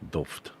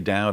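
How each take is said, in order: First: The name has a V sound before the D. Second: The name rhymes with loud, with a W glide. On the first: "D O W V D" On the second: "Dowd as in loud"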